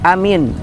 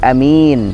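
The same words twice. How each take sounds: First: Both vowels are kept short. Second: The first vowel is short, the second long. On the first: Trustworthy. "A-nya dua-duanya pendek, min-nya juga pendek" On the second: Safe. "kalau A-nya pendek adalah aman"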